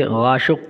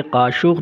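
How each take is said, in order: First: गाशुक with a voiced g at the start, Iranian style; Iranian g sound. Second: काशुक with a hard, throaty k at the start; hard k sound. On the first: Teacher shows students the Iranian g in गाशुक. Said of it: "इसे गाशुक कहते हैं". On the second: Teacher shows students the wrong k in काशुक. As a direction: say काशुक with a clean k, as the wrong version. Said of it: "ये काशुक नहीं कहेंगे". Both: Shown as a demonstration.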